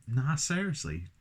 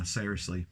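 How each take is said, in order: First: Higher-pitched mock London accent. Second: Said in the usual way. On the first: Reviewer mocking own words to viewers, London accent. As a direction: put on a London "nah, seriously". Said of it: "Where the fuck am I from? London". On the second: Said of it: "Where the fuck am I from?".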